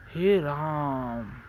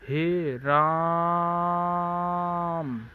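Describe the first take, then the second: First: हे राम with the vowels stretched slow and louder; long drawn vowel. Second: हे राम held out extremely slow, higher and much louder, almost sung; very long drawn cry. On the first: Teacher showing students the long vowel mark, stretched slowly. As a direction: draw out राम like a cry. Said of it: "दीर्घ उच्चारण करना है". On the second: Teacher showing the class an extreme long vowel, sung out. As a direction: hold राम out like a lament. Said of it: "इसका मतलब दीर्घ उच्चारण". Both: Shown as a demonstration.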